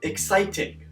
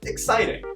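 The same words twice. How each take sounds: First: Every syllable is over-enunciated, robot-like. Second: It is said in a relaxed, conversational way.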